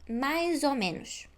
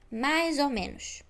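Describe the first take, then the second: No difference in how they are said.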